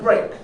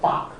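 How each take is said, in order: First: It is said like the word break. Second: It is said like the word bark. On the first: The speaker calls it right. "we usually call it break" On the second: The speaker calls it wrong. "don't call it bark. Okay, it's not a dog"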